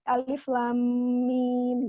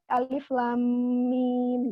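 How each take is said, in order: First: Each letter is named separately by its full name. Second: The same.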